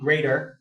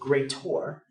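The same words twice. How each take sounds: First: The word ends with a plain 'er' sound. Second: The word ends with an 'or' sound. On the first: "instead of saying greater" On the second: "if you pronounce it like greater"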